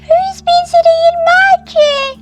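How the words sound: It is said in a tiny, squeaky voice.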